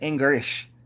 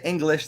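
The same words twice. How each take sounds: First: The L sound is replaced by an R sound. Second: The word is said with a clear L sound. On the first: "They say English. See the L turns to the R" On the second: "They don't say English"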